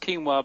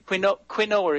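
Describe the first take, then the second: First: It is said with a Spanish pronunciation. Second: It is said the way it is spelled. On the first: "it's pronounced quinoa because everybody seems to carry the Spanish pronunciation" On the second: "it's spelled"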